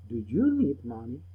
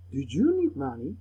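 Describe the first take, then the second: First: Slowed model question for learners; unhurried, clear classroom repetition; slower repeat. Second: Said in the usual way. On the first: Shown as a demonstration. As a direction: say it again, more slowly. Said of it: "Repeat the words slowly". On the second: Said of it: "Repeat the sentences with me".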